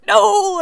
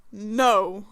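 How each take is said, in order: First: High, loud mock-frightened NO; scared no. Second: Low, restrained NO; angry no. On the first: Friend facing Lucifer, scared no. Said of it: "you're scared no". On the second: Acted. Player refusing to accept Lucifer, angry no. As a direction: drop NO low and firm, mock angry. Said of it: "I'm angry no".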